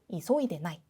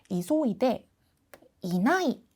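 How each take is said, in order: First: The 'i' before 'nai' is left out. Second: The 'i' before 'nai' is pronounced in full. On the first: This is the casual spoken form. "이는 생략을 하고 이소이대 나이 라고 축약해서" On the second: This is the full standard form. "원래 이소이대 이나이 라고 표현을 하는 게 사실은 맞아요"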